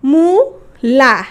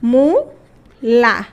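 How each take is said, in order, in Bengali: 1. শব্দটি বিবৃত 'a' স্বরধ্বনি দিয়ে শেষ হয়। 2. শব্দটি বিবৃত 'a' স্বরধ্বনি দিয়ে শেষ হয়।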